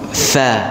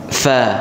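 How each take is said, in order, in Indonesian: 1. Dimulai dengan gesekan bibir bawah pada gigi atas. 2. Dimulai dengan gesekan bibir bawah pada gigi atas.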